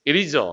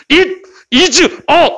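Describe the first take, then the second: First: "it is a" run together as one relaxed word; easy linked pronunciation. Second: "It is a" in high, loud, slow separate words; exaggerated separate words. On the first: Teacher showing how Americans say it, easily linked. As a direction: let "it is a" flow with no gaps. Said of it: "이렇게 편하게 발음하지". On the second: Teacher showing what Americans don't do, each word punched apart. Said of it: "이렇게 발음하지 않아". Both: Shown as a demonstration.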